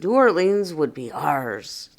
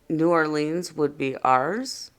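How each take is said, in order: First: It is said as an excited, victorious statement. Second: It is said as a rising question.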